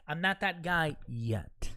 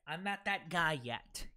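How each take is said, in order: First: Slow, weighty "I'm not that guy yet"; emphasized. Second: Said in the usual way. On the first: Real, not acted. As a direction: lean on each word of "I'm not that guy yet", slowly. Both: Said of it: "Let me emphasize that".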